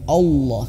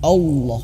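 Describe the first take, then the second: First: The first vowel is thick, sounding like o. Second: The first vowel is thick, sounding like o.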